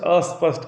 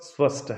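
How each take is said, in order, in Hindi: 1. शब्द एक जोड़े गए स्वर से शुरू होता है। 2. शब्द सीधे s ध्वनि से शुरू होता है। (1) "हम लोग अस्पष्ट अस्पष्ट कहते हैं, ये उच्चारण गलत गलत है" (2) "स्पष्ट स्पष्ट है"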